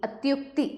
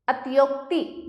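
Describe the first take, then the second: First: Said in the usual way. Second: अत्योक्ति with long o; अत्योक्ति as atyokti. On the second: Shown as a demonstration. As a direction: open the u to o, अत्योक्ति. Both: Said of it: "अत्योक्ति नहीं".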